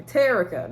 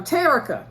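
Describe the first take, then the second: First: Said in the usual way. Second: "Terica" called out high and loud; emphatic name. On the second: Real, not acted. Vlogger reveals the daughter at the door, "Terica" said high and loud.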